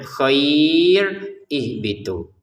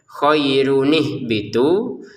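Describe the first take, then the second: First: The words are split by a stop for breath. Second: The words run together, linked by an n sound. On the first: "Kalau diputus cara bacanya" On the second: "kalau digabungkan cara bacanya"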